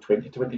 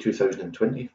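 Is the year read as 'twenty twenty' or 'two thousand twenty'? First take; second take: twenty twenty; two thousand. First: The year is read as twenty twenty. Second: The year is read as two thousand twenty. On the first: The speaker calls it right. "you go 2020" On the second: The speaker calls it wrong. "you don't say 2020"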